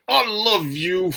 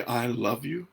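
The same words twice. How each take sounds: First: "I love you" squeezed out tense, higher, louder and slow; forced, strained "I love you" through a tight face. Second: "I love you" soft and open on a free breath; relaxed, breathing "I love you". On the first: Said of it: "tense your face up and just say". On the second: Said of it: "open and relax and breathe". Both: Shown as a demonstration.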